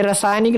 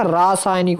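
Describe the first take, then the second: First: "रासायनिक" with short "ra"; short first vowel. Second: "रासायनिक" with long "raa"; long first vowel. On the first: Teacher showing students the mistake, रासायनिक with short "ra". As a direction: say रासायनिक as "rasaaynik". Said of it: "ये रासायनिक नहीं होता". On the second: Teacher giving students the correction, रासायनिक with long "raa". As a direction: say रासायनिक as "raasaaynik". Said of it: "रा, रा". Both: Shown as a demonstration.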